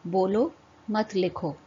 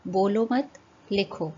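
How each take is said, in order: First: बोलो on a rise, break, then मत लिखो; pause after बोलो. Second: बोलो मत run together, break, then लिखो; pause after मत. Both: Shown as a demonstration. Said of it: "चिन्हों के प्रयोग से उनका अर्थ बदल".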